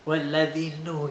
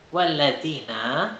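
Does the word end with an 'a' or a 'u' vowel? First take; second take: u; a. First: The word ends with a 'u' vowel. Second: The word ends with an 'a' vowel. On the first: The speaker calls it wrong. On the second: The speaker calls it right.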